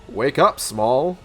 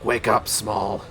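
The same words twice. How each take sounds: First: It is said in an ordinary voice. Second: It is said in a deep, gravelly voice. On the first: The speaker calls it wrong. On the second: The speaker calls it right.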